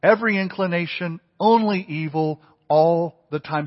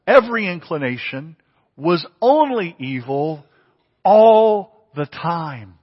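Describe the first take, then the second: First: Every quick, only evil hit hard; quick every inclination, then punch only evil; emphatic repeat. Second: Only stressed, all the time drawn out slow; emphatic reading. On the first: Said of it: "He couldn't have said it more emphatically". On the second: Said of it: "notice what he says". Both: Shown as a demonstration.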